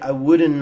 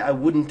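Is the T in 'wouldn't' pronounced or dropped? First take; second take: dropped; pronounced. First: The T sound is dropped. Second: The T sound is pronounced. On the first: The speaker calls it right. "The T disappears too" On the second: The speaker calls it wrong. "We don't say I wouldn't"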